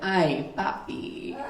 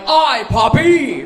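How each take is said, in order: First: It is said in a sultry, sexy voice. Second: It is said in a gruff, sailor-like voice.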